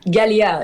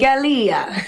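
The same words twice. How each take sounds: First: It is said flat, without stress. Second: It is said with one syllable stressed.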